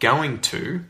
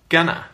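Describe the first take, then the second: First: It is said as two full words. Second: It is reduced to one short word.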